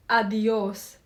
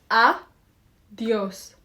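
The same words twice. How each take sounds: First: "Adios" drawn out for learners to follow; slowly. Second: "Adios" split as A, pause, dios; clapped syllables. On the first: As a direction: say "Adios" unhurriedly, every sound clear. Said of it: "Say it slowly with me". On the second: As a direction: break "Adios" into separate beats, louder on the A. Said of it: "Let's clap the syllable". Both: Shown as a demonstration.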